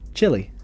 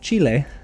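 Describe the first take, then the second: First: It is said like the food chili. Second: It is said like the country's name. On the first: "like the chili that you eat" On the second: "instead of Chile"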